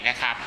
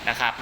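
No difference in how they are said.

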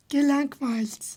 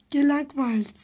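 No difference in how they are said.

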